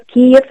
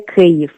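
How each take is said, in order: First: Kiev said the Russian way; Russian pronunciation. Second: Kyiv said the Ukrainian way; Ukrainian pronunciation. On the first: Guest shows host the Russian form, Kiev said Russian-style. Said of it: "es pronunciar en ruso". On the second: Guest teaches host the correct name, Kyiv said Ukrainian-style. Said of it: "En ucraniano lo correcto sería". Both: Shown as a demonstration.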